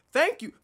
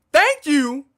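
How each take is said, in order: First: Said in the usual way. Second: Belted out, much louder; loud thank you. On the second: Real, not acted. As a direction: shout the thanks with gusto.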